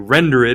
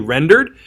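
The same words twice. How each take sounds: First: The word is said with three syllables. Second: The word is said with two syllables. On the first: "with the accent over the ed, you pronounce it" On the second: "It'd be normally rendered"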